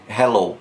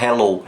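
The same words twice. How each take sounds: First: "hello" com H de sopro, embaçando o vidro; breathy English h. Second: "hello" com H raspado como R brasileiro; wrong R-like h. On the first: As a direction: sopre leve no H de "hello". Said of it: "você precisa embaçar o vidro". (H soprado, certo) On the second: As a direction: exemplo errado, H forte de R. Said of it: "não é um R". (H errado, como R) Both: Shown as a demonstration.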